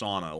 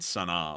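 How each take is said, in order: First: The name sounds like the word sauna. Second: The name does not sound like sauna. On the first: The speaker calls it right. "It's sauna, like a like a sauna" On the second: The speaker calls it wrong. "like what we were saying originally"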